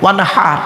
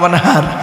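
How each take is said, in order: First: The h is made deep in the throat. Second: The h is a plain, light breath. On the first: It means offer a sacrifice. The speaker calls it right. "এই গলার ভেতর থেকে হে এটা উচ্চারণ করবেন" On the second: It means dig a canal. The speaker calls it wrong. "আর আমরা উচ্চারণ করতে গিয়ে কি বলি?"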